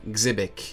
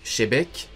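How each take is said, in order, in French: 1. Le nom commence par un son 'ks'. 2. Le nom commence par un son 'sh'. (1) "d'autres comme moi disent Xebec" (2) "Certains disent Shebec"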